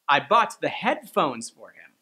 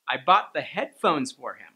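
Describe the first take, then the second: First: The stress falls on the word "headphones". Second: The stress falls on the word "headphones".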